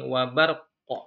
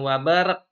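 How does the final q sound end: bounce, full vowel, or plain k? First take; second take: bounce; plain k. First: The q ends with a short echoing bounce. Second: It ends in a plain, flat k sound. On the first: The speaker calls it right. "Jadi ada unsur qalqalah" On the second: The speaker calls it wrong. "bukan wabarak, wabarak salah ya"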